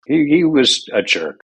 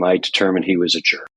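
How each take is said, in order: First: "jerk" said higher with a falling emphatic tune; higher, punchier second take of "jerk"; emphatic repeat. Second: Said in the usual way. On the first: Real, not acted. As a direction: hit "He was a jerk" hard and high. Repeats the verdict louder.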